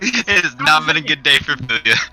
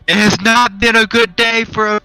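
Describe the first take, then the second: First: It is said at normal, quieter volume. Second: It is said louder.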